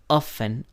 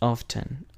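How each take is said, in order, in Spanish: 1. La palabra se dice sin sonido T. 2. La palabra se dice con sonido T. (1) "we usually say the word often without pronouncing the letter T" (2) "lo he escuchado más en inglés británico como often"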